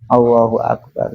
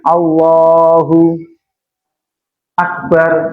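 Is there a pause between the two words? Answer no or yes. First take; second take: no; yes. First: The two words are joined without a pause. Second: There is a pause between the two words. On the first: The speaker calls it right. "nyambung nggih" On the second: The speaker calls it wrong. "kok berhenti"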